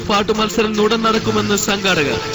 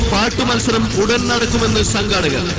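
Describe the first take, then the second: The two takes are said the same way.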